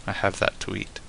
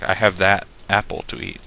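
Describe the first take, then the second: First: Said in the usual way. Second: "that" stressed as if singling out one apple; "that" said full and strong before "apple"; pointing stress on THAT. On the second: Shown as a demonstration. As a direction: lean on "that", pointing at a particular apple. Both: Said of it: "Not like".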